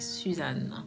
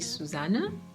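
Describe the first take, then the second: First: The name is said without a German pronunciation. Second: The name is said with a German pronunciation. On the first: This is how the name is meant to be said. The speaker calls it right. "the pronunciation is Suzanne" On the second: This is how German speakers say the name. The speaker calls it wrong. "in German, some people say Susanne"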